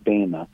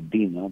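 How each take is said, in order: First: The first vowel is a long A sound. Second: The first vowel is not a long A sound. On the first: The speaker calls it right. "it's a long A in Greek, so it's pronounced more like Bema" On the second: The speaker calls it wrong. "as opposed to Bema"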